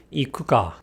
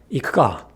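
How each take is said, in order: First: "ikuka" with every vowel fully voiced; wrong ikuka. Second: "ikuka" with the u devoiced, almost "ikka". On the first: Teacher showing the wrong way: "ikuka" with a full u. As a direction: say "ikuka" as three clear syllables, i-ku-ka. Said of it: "pronounced quickly would be". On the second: Teacher showing the right way: "ikuka" with a silent u. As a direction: whisper away the u in "ikuka". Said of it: "said quickly is not ... but". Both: Shown as a demonstration.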